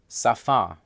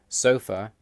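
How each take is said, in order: First: It is stressed the Russian way. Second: It is stressed the English way. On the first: "have different stress in Russian" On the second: "English words"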